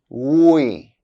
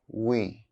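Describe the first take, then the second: First: The word is said fully with its full vowel. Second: The word is reduced with a weak vowel. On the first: "I'll say the strong forms of the words first" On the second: "then their weak forms"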